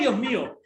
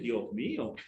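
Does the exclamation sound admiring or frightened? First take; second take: frightened; admiring. First: It is shouted in sudden fright. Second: It is said in an admiring, appreciative way. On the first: Something scary is happening. "hay un temblor y uno pega un grito" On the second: Someone is admiring a beautiful person. "Uno ve una mujer bonita y dice"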